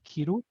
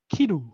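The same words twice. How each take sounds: First: Its pitch accent gives the meaning to wear. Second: Its pitch accent gives the meaning to cut. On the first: The word means to wear. "kiru to wear" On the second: The word means to cut. "kiru to cut"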